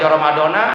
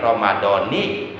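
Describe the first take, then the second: First: The word ends with an 'a' vowel. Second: The word ends with an 'i' vowel. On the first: The speaker calls it wrong. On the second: The speaker calls it right.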